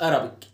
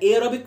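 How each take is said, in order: First: The first vowel is a short 'a' sound. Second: The first vowel is a long 'ay' sound. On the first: The speaker calls it wrong. "مش ارابيك" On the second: The speaker calls it right. "اسمها ايرابيك"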